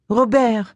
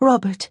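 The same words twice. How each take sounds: First: The name is said with a French accent. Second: The name is said with an English accent. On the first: "She gave his name its French intonation" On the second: "said it again with its English pronunciation"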